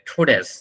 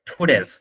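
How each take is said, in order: First: The first t is strongly aspirated. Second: The first t is strongly aspirated.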